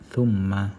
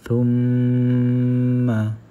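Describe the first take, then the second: First: The nasal m is said quickly and short. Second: The nasal m is held for two beats. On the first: The speaker calls it wrong. "Bukan kita baca dengan cepat" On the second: The speaker calls it right. "tu perlu didengungkan sebanyak dua harakat"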